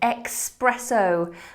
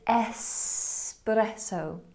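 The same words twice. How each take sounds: First: It begins with an 'ex' sound. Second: It begins with an 'es' sound. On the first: The speaker calls it wrong. "We were adding this X sound" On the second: The speaker calls it right. "It's espresso"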